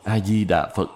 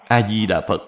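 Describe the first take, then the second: First: Each syllable is said fully and distinctly. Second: The syllables are rushed and slurred together. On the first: The recitation is careful and complete. The speaker calls it right. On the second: The recitation is careless and vague. The speaker calls it wrong.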